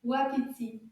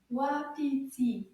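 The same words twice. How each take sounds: First: "Wapiti" run together as one quicker word; a bit faster. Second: "Wapiti" said slowly, syllables apart; slow model. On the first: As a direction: say "Wapiti" more briskly, syllables joined. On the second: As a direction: stretch "Wapiti" out so it can be repeated. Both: Shown as a demonstration. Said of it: "a little bit faster".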